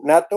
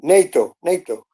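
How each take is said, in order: First: Nato with a short flat A, "NAH-toh"; pronounced as a word. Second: Nato as "NAY-toh", long A; English pronunciation. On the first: Asking how English says it, nato with an open A. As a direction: say nato as one word, open first vowel. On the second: Repeating the listener's answer, nato as "NAY-toh". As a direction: say nato with first syllable like "nay". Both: Shown as a demonstration. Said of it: "how do you say nato in English".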